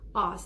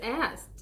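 First: The vowel sounds like the vowel in 'father'. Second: The vowel sounds like the vowel in 'cat'. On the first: This is the British pronunciation. "For the British, you know, the English, Scottish, and all that, they would say asked" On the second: This is the American pronunciation. "That's the American pronunciation"

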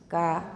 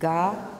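First: The consonant is voiceless with no breath puff. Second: The consonant is fully voiced before the vowel.

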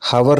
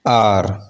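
First: The h is sounded. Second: The h is silent. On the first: The speaker calls it wrong. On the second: The speaker calls it right.

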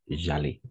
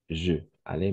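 First: The vowel of je is dropped and joined. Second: The vowel of je is fully pronounced. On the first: The speaker calls it right. "mais parce qu'il y a deux voyelles ensemble" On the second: The speaker calls it wrong. "Dans ces cas-là"

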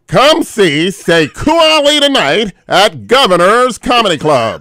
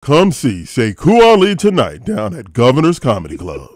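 First: It is said in a put-on nerdy voice. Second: It is said in his natural voice.

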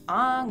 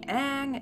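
First: The name is said the German way. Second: The name is said the American way. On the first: This is how the German dub says it. "I've watched it in German, obviously, so all the time I heard it as Aang" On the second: This is how most people say it. "most people say Aang"

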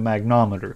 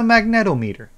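First: It is said with four syllables, mag-nom-e-ter. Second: It is said with five syllables, mag-ne-tom-e-ter. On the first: The speaker calls it wrong. "I was calling it a magnometer" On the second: The speaker calls it right. "So, it's a magnetometer"

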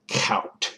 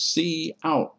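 First: It is said as a single syllable. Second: It is said as the letter C, then 'out'. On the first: The speaker calls it wrong. "not cout" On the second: The speaker calls it right. "Cout is pronounced as C out"

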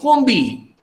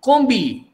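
The two takes are said the same way.

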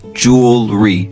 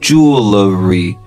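First: The word is said with two syllables. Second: The word is said with three syllables. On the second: "British spelling and pronunciation, then now you have three syllables"

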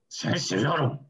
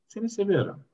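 First: It is said in an angry tone. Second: It is said in a calm, non-angry tone.

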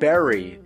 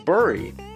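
First: The first vowel sounds like the vowel in 'berry'. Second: The first vowel sounds like the vowel in 'burr'. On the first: The word is said the way most people say it. "But everyone else says bury" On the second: The word is said the way its spelling suggests. "It's spelled with a U, why wouldn't it be bury?"

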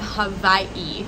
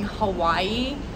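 First: The middle consonant is a v sound. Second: The middle consonant is a w sound. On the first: This is how locals say it. The speaker calls it right. "here they call it ... if it's in the middle, it's a V" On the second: This is how mainlanders say it. The speaker calls it wrong. "everyone in the U.S. is saying"

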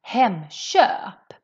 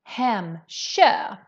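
First: The consonant before ö is a sh-like sound. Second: The same.

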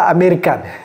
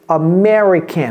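First: It is said with a French-style pronunciation. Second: It is said with an English pronunciation. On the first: The speaker calls it wrong. "c'est villageois ça, ne dites pas américain" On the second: The speaker calls it right. "c'est American"

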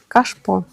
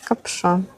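First: The sh sound comes before the p sound. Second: The p sound comes before the sh sound.

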